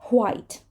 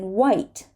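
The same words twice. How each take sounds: First: It starts with a breathy H before W. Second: It starts with a plain W, no breath. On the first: "put the H before the W" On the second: "we do not say the H after a W"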